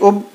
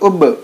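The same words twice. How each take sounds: First: The final consonant is held and stopped dead. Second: The final consonant is released with a bounce. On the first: The speaker calls it wrong. "इस तरह रुक नहीं जाएंगे" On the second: The speaker calls it right. "बल्कि उब"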